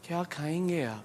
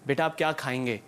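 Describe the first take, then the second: First: It is said in a coy, flirtatious tone. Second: It is said in a plain, motherly tone.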